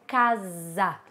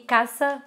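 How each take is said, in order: First: The s is a voiced z sound. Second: The s is an unvoiced s sound. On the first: The speaker calls it right. "Seria casa" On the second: The speaker calls it wrong. "Mi casa, não"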